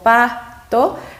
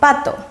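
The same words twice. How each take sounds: First: The syllables are said apart with a break. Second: The word is said smoothly without a break.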